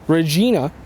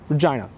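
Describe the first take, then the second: First: It is said with the classical Latin pronunciation. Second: It is said with the shifted English vowels. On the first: "the Latin pronunciation" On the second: "vowels started shifting during the fourteen hundreds in England"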